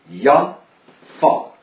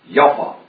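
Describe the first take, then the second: First: The name is split into two separate parts. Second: The name is run together as one word.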